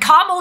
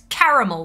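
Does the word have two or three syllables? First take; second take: two; three. First: The second A is dropped, giving two syllables. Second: The second A is pronounced, giving three syllables. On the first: "is a woman's name" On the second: "Make sure you pronounce it"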